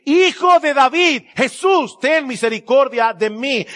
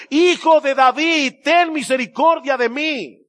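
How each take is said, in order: First: High, loud, slow cry for mercy; pleading cry. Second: High, loud, slow plea for mercy; desperate cry. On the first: Blind beggar crying out to Jesus, high and loud. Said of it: "comenzó a gritar y a decir". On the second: Beggar shouting over the crowd, high and desperate. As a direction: cry out over the crowd trying to hush you. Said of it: "comenzó a gritar mucho más". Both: Retold or imitated.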